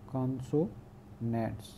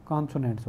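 First: consonants slowly, softly split into parts; syllable by syllable. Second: Said in the usual way. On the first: Shown as a demonstration. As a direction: break consonants up with a pause inside. Repeats term broken into syllables.

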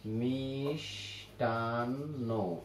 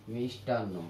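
First: মিষ্টান্ন very slowly and softly, miiish, taaan, no; মিষ্টান্ন in three long, separated syllables; syllable-by-syllable demonstration. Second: Said in the usual way. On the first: Shown as a demonstration. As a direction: stretch মিষ্টান্ন right out, holding the sh. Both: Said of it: "কিন্তু উচ্চারণ করি কিভাবে?".

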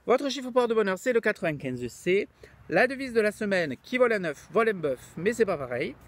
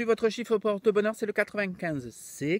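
First: Louder mock Midi accent; southern French accent. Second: Put-on accent of the Midi; southern French accent. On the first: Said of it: "il a l'accent du midi". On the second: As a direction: sing it out in a mock Midi accent. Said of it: "Maintenant, il a l'accent du midi".

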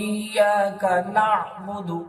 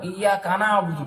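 First: Slow, ইয়াকা and না'বুদু kept apart; correct reading. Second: ইয়াকা না'বুদু run together as কানা আবুদু; the common mistake, joining ইয়াকা to না'বুদু; wrong reading. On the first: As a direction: say না'বুদু with নুন on জাবার, not আবুদু. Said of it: "এই নুন আইন জাবার না". (সঠিক উচ্চারণ) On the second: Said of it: "এখানে একটা আপনারা ভুল করেন". (ভুল উচ্চারণ দেখানো) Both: Shown as a demonstration.

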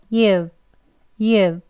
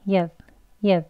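First: You've with a full, drawn-out vowel; long you've. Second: You've reduced to a short weak vowel. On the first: Teacher demonstrates the full form, long you've. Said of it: "길게". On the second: Teacher shows the conversational form, weak short you've. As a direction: say you've lightly and briefly. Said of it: "그리고 약하게 you've". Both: Shown as a demonstration.

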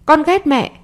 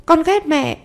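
First: Put-on higher, childish cry of hate; child's outburst. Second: Put-on much higher childish voice, falling hard; the final sulky blow to mum; child's outburst. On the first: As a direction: fling it at mum like a sulking boy. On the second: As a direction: son yelling he hates his mother, higher voice. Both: A narrator's reading. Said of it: "nó đẩy mạnh cô hơn".

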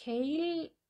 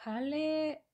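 First: Hale said the English way, like "ail". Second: Hale read the Spanish way, "a-le"; Spanish-style Hale. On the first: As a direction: Hale with an English long A, "eil". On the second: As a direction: Hale with a plain Spanish A and a spoken E. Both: Shown as a demonstration.

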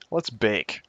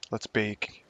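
First: "Let's" punched louder, a mock-grand "Let's bake"; hammed-up "Let's" with a falling end; playful stress on Let's. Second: Said in the usual way. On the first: Shown as a demonstration. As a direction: hit "Let's" hard and loud. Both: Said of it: "attempt to use English language proper".

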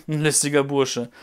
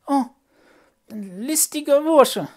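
First: Said in the usual way. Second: High, slow, loud puppet voice on "ein listiger Bursche"; marvelling puppet. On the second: Acted. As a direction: savour "listiger Bursche" in awe. Puppet repeats the narrator.

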